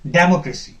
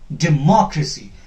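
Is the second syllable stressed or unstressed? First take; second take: unstressed; stressed. First: The second syllable is not stressed. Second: The second syllable is louder, longer and higher. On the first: The speaker calls it wrong. "usually we pronounce this word as democracy. That is wrong" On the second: The speaker calls it right. "The stress will be here. More"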